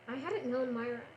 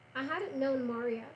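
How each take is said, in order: First: The name is said as two syllables, 'Myra'. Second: The name is said as three syllables, 'Maria'. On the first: The speaker calls it wrong. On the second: The speaker calls it right.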